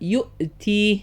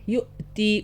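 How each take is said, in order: The two takes are said the same way.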